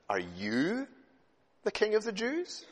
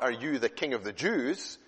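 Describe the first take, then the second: First: The word 'you' carries strong stress. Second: The word 'you' carries no special stress. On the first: The speaker calls it right. "the emphasis is on the word "you."" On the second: The speaker calls it wrong.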